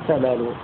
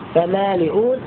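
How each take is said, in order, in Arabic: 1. لا همزة؛ والضمة تحل محلها. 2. تأتي الهمزة بعد الكسرة. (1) "يحذف الهمزة وينقل حركتها إلى ما قبلها، كان قبلها مكسورا فيضم" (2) "فمالئون صارت"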